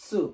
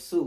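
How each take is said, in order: First: "সু" as tsu, pressed out from inside. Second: "সু" with a light hissed s from the tongue tip. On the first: Teacher contrasting the ta-line letter with su, "সু" as pressed tsu. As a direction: push "সু" from further back, with a stopped ts onset. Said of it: "আমরা একটু চাপ দিয়ে ভিতর থেকে". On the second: Teacher recalling the sa line for contrast, "সু" as a plain tongue-tip su. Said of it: "একবার জিহ্বার আগা থেকে বলার চেষ্টা করব". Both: Shown as a demonstration.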